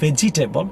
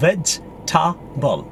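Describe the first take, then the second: First: "vegetable" as vej-ee-TAY-bul; mispronunciation. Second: "vegetable" slowly as vej-ta-bul; correct pronunciation. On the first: Teacher showing there is no table in it, mispronounced. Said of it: "It's not vegetable". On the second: Teacher correcting it for learners, syllable by syllable. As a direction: split "vegetable" into three slow beats. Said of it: "It's vegetable". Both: Shown as a demonstration.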